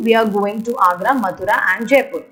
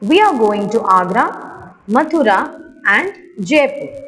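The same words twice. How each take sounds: First: It is read straight through without pauses. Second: It is read with pauses at the commas.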